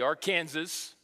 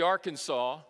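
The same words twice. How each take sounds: First: It is said the way local people say it. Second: It is said the way out-of-state visitors say it. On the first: The speaker calls it right. "Those of us who are local, it's the Arkansas River" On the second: The speaker calls it wrong. "It's not the Arkansas"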